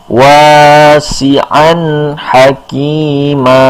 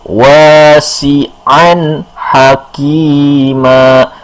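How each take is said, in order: The two takes are said the same way.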